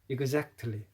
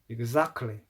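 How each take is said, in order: First: The t in the middle is clearly pronounced. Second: The t in the middle is dropped. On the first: "이런 발음을 들었습니다" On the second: "영국 사람들은 이렇게 발음하죠"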